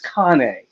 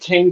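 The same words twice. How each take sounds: First: Cane is pronounced the Italian way. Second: Cane is pronounced like the English word. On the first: The speaker calls it right. "I said no, it's cane. They're an Italian breed" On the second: The speaker calls it wrong. "my vet was like cane corso"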